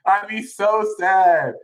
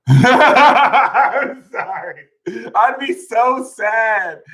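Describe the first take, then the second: First: Said in the usual way. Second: Laughing. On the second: Real, not acted. Laughing at his own line.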